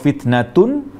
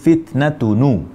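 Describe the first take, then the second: First: The word ends on a bare n sound. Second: The word ends with an added u vowel.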